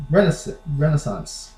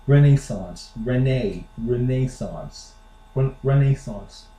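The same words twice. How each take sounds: First: Renaissance as REN-uh-sahnce; US-style Renaissance; American pronunciation. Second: Renaissance with NAY in the middle, re-NAY-sahnce; British-style Renaissance; British pronunciation. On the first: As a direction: say Renaissance with a weak middle vowel. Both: Shown as a demonstration. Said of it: "here's how the Brits say it".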